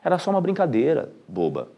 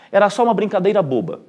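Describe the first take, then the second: First: There is a pause before boba. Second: It is said without a pause before boba. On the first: The listener is being called silly. "com uma vírgula, a entonação muda" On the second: The joke itself is called silly. "esse boba, na verdade, está se referindo à brincadeira"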